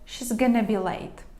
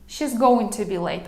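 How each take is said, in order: First: Contracted throughout, with going to reduced to gonna. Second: She is is contracted but going to stays full. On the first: It sounds softest. "Ще м'якше, ще коротше" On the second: It sounds softer. "Окей, це вже м'якше"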